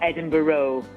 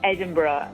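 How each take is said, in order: First: It is said the American way. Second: It is said the Scottish way. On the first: The speaker sounds like an outsider to the city. The speaker calls it wrong. "not Edinburgh. American people say Edinburgh" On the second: The speaker sounds like someone who knows the city. The speaker calls it right. "you say Edinburgh ... you say it properly"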